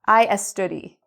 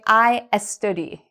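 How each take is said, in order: Both takes have the same delivery.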